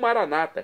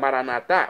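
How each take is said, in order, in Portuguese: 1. A tônica cai antes da última sílaba. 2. A tônica cai na última sílaba. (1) "como dizem nossos irmãos separados das comunidades evangélicas ou protestantes" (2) "Pronúncia católica"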